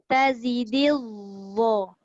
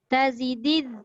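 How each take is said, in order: First: The 'dh' sound is thick, without spread lips. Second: The 'dh' sound is thin, with spread lips. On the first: The speaker calls it right. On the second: The speaker calls it wrong.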